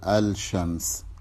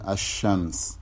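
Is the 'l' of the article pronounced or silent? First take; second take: pronounced; silent. First: The l is clearly sounded before sh. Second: The l merges into the following sh sound. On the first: The speaker calls it wrong. "ولا تقول الشمس" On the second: The speaker calls it right. "بمعنى عدم إظهارها في النطق، فتقول الشمس"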